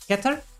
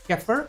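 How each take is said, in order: First: The middle consonant is a hard T. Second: The middle consonant is a soft TH. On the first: "I pronounce this as Keter" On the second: "with a more softer T H"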